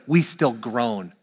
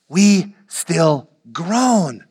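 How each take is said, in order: First: Said in the usual way. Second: Very slow, weighty delivery; drawn-out groaning. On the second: Shown as a demonstration. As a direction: stretch each word out, long on "groan". Slow emphatic repeat of quote.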